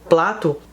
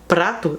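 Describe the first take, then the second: First: The word begins with a 'pl' sound. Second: The word begins with a 'pr' sound. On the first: "eles falam plato" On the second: "Por exemplo"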